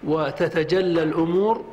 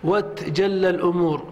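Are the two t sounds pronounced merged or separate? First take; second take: separate; merged. First: Two separate t sounds are pronounced. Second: The t sounds merge into one doubled t. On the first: "بالفك" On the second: "أو تدغم"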